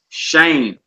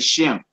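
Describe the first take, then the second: First: The vowel is a long 'ay' sound. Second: The vowel is a short 'e' sound. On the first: "the word there is shame" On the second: "Some say shem"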